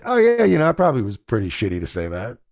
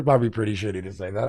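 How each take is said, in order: First: Quick, mumbled mock apology from the friend; imitating a sheepish friend. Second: Said in the usual way. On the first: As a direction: toss off the friend's grudging admission. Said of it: "and you're like". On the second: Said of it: "Yeah, it was pre".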